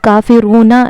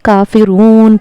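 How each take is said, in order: First: The word ends with an extra vowel sound. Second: The word ends abruptly on the final consonant. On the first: The speaker calls it wrong. "इसको हम काफिरूना नहीं" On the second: The speaker calls it right. "बल्कि काफिरून पढ़ेंगे"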